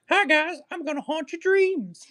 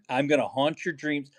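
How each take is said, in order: First: It is said in a put-on character voice. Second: It is said in his normal voice.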